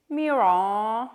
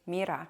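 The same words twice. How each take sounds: First: Mira drawn out slow and rising; mock the way chat says Mira; Americanized Mira. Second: Said in the usual way. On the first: Shown as a demonstration. Streamer mocking how chat says Mira, slow and rising. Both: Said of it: "you say Mira".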